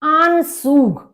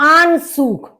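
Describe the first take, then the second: Both takes have the same delivery.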